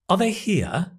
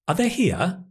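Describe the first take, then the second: First: 'Are' is reduced to a weak schwa sound. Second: 'Are' is reduced to a weak schwa sound.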